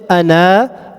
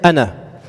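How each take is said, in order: First: The final vowel is drawn out long. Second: The final vowel is kept short. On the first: The speaker calls it wrong. "Even though there's a, a leaf after the noon, I don't say ana" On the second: The speaker calls it right. "I just say ana"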